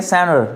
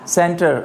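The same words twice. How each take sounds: First: सेंटर in an American accent, t dropped as in senner. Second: British accent. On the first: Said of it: "American बोल सकते हैं सेंटर". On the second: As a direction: say सेंटर the British way, t clearly sounded. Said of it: "Britishers बोल सकते हैं सेंटर". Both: Shown as a demonstration.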